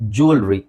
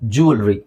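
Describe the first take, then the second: No difference in how they are said.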